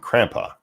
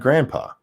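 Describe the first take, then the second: First: The word begins with a K sound. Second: The word begins with a G sound. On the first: This is a child's early way of saying it. "she said it with a C" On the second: This is the standard form of the word. "grandpa with the G"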